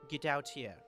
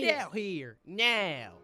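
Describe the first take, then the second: First: It is said in a Russian accent. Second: It is said in a Southern accent.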